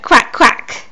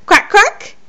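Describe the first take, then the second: First: Said in the usual way. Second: Higher, rising quack, quack; high playful quack. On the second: Retold or imitated. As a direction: sing it up like a duck. Duck sound said twice differently.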